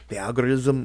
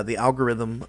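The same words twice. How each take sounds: First: "algorithm" slipped out as "algorizm"; slip of the tongue. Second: Said in the usual way. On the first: Real, not acted. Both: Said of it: "I don't know what that was".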